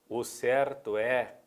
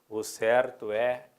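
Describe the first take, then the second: No difference in how they are said.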